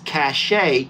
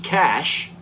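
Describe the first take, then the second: First: It is two syllables, ending in an ay vowel. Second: It is one syllable, ending in a sh sound. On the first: "you pronounce the A on the end of it" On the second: "you say it like cash, like money"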